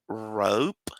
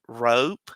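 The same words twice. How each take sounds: First: It is said slowly. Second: It is said a little faster.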